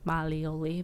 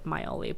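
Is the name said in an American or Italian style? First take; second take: Italian; American. First: The name is said in an Italian style. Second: The name is said in a plain American style. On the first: The speaker calls it right. "there's an actual like Italian term" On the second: The speaker calls it wrong. "I feel like I'm even saying it wrong"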